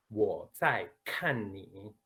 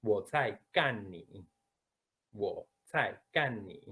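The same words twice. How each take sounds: First: "kan" in "Wo zai kan ni" said slowly with no breath on the k; slow careful Mandarin, no puff on "kan"; gentle unaspirated Chinese "Wo zai kan ni". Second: Slowly, "kan" with a strong puff of air on the k; aspirated Mandarin k in "kan". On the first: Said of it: "Sí, la primera". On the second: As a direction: blow air out hard on "kan" in "Wo zai kan ni". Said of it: "que esto es para pelea". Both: Shown as a demonstration.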